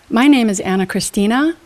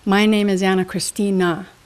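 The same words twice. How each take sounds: First: The pitch rises at the end. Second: The pitch falls at the end. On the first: The speaker sounds unsure and weak. The speaker calls it wrong. "It sounds weak because I'm going up at the end of every sentence" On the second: The speaker sounds confident. The speaker calls it right. "When you choose to finish neutral or down"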